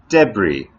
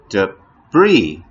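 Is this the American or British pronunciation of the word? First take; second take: British; American. First: It is said the British English way. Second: It is said the American English way. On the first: "or in British English you'll sometimes hear" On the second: "in American English"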